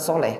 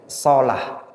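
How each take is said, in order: First: The second vowel of the name is e. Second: The second vowel of the name is a. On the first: The speaker calls it wrong. "bukan soleh" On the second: The speaker calls it right. "tapi solah"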